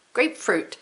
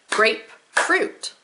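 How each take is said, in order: First: Said in the usual way. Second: GRAPEFRUIT split slowly into grape, pause, fruit; syllable by syllable. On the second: Shown as a demonstration. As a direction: clap out "Grapefruit" in two separate beats. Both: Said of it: "two syllables".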